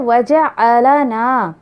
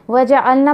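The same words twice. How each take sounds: First: The l carries a short vowel before the n. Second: The l has no vowel before the n. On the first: You made us Muslims. The speaker calls it right. "वहाँ पर है वजअलना" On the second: We made ourselves Muslims. The speaker calls it wrong. "ये गलती करते हुए देखा है"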